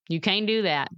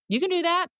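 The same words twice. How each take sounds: First: Understated voice of self-doubt; negative inner voice. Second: High, insistent pep talk to oneself; encouraging self-talk. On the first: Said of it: "Sometimes my head will say". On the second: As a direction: counter the doubt with a high-pitched lift. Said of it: "I have to tell myself". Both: Acted.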